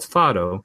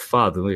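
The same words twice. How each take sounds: First: The word is pronounced the English way. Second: The word is pronounced the Portuguese way.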